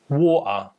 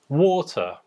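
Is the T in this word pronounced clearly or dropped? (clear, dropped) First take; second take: dropped; clear. First: The T is replaced by a catch in the throat. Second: The T is pronounced in a standard British way. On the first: "Já no sotaque Cockney, a letra é pronunciada de forma diferente" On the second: "No meu sotaque, por exemplo, que é o Modern R P, nós falamos"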